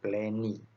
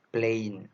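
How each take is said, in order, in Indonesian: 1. Kata itu berakhir dengan bunyi vokal tambahan. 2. Kata itu berakhir jelas pada bunyi n. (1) "bukan plainy" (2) "dibacanya dengan none, plain"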